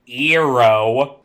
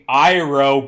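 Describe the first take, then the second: First: The name is said with a changed first vowel. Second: The name is said in the familiar anglicized way. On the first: This is how the film changed it. The speaker calls it wrong. "Eero sounds bad" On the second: This is how the cartoon says it. The speaker calls it right. "making Iroh be Eero"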